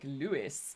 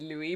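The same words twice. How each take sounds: First: The name ends with an audible s sound. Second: The name ends in a vowel, no s. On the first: This is how insiders of jazz say the name. "the inner jazz circles say it like Louis" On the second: This is how most people say the name. "most people pronounce it Louis"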